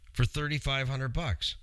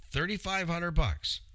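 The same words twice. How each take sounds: First: Said in the usual way. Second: THIRTY-FIVE HUNDRED BUCKS repeated higher, each word stressed; emphatic repeat. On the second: Shown as a demonstration. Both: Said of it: "Yeah, you heard it".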